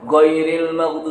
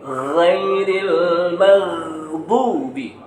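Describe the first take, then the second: First: It starts with a plain hard g sound. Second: It starts with a rasping throaty gh sound. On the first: The speaker calls it wrong. "bukan pakai G, bukan goiril maghdubi" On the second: The speaker calls it right. "huruf ghin ya, tapi ghairil maghdubi"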